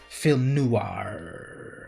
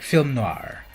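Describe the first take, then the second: First: Noir is said with an added oo vowel. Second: Noir is said without an oo vowel. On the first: The speaker calls it wrong. "not film noir" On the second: The speaker calls it right. "There's no U in there. Film noir. It's closer to that"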